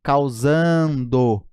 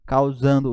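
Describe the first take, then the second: First: "Causando" stretched very slowly so the "ndo" is clear; drawn-out demo. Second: Said in the usual way. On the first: Shown as a demonstration. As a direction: pull "Causando" out slowly, syllable by syllable. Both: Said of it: "N D O".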